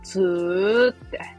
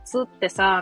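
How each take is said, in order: First: Tsu is stretched long, Mie dialect style. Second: Tsu is said short, standard Japanese style.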